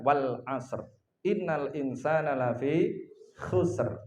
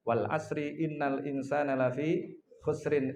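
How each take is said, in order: First: The verse endings stop short on the r. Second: The verse endings keep their final vowels. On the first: The speaker calls it right. "Yang paling tepat adalah" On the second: The speaker calls it wrong. "Saya sering mendengar surat ini dibaca dengan tidak tepat"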